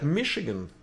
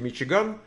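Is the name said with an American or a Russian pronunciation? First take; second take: American; Russian. First: The name is said with an American pronunciation. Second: The name is said with a Russian pronunciation. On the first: "А тут прямо они так и говорят" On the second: "по-русски Мичиган"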